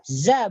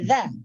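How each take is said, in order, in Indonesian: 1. Ujung lidah menyentuh gigi bawah: z. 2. Ujung lidah menyentuh gigi atas: dh. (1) "Kalau za, ujung lidah menyentuh gigi bagian bawah" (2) "bukan za"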